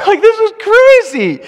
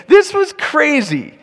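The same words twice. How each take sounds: First: Laughing, high and loud as he says it. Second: Slow, emphatic, with "This" leaned on hardest; stress on this. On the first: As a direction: laugh through the whole line. Laughs at the roof story. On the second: Repeats line for emphasis. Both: Acted.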